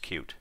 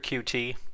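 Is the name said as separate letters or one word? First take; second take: one word; letters. First: It is said as one word, like cute. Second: It is said as two separate letters. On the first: The speaker calls it right. "it is actually pronounced Qt" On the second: The speaker calls it wrong. "if you do hear QT, that's incorrect"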